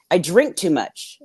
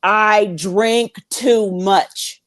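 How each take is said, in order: First: Said in the usual way. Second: Insisting. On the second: Retold or imitated. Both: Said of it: "I keep telling them".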